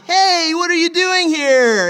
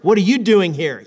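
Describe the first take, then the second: First: It sounds warm and pleasantly surprised. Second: It sounds stern and mildly rebuking.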